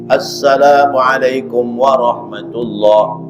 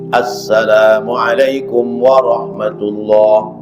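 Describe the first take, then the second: First: Every sound, including the article, is said clearly. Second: The same.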